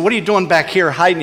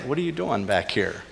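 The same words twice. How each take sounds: First: Fast, harsh accusing question; condemning voice. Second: Much softer, gentle question; gentle asking. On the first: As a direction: demand it like a judge catching him hiding. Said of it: "he could have condemned him". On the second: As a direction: ask softly, without blame. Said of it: "You know, he just like". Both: Pretend.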